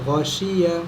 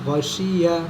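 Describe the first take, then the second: Both takes have the same delivery.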